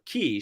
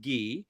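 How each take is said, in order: First: The word is said so it sounds like 'key'. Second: The word is said in the speaker's usual way.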